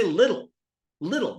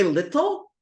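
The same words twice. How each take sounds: First: "little" as "liddle". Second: "little" with a clear T, not a D; hard T. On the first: Teacher showing everyday speech, casual D sound. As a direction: soften the T in "little" to a quick D. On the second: Teacher asking how students say it, over-precise T. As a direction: pronounce "little" as spelled, T fully sounded. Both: Shown as a demonstration. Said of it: "The ta is pronounced the duh".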